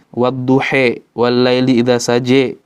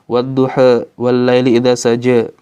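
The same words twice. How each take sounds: First: The final A vowels shift fully to E. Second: The final A vowels shift only slightly toward E. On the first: "Kalau kubro itu e" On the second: "Kalau imalah sugro e"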